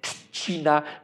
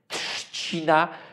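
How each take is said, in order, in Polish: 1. Początkowa grupa spółgłosek zredukowana jest do dźwięku cz. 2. Początkowa grupa spółgłosek wymawiana jest z przesadną wyrazistością. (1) "z czcić by się nam zbyt kojarzyła" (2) "może jest zbyt wyraźne"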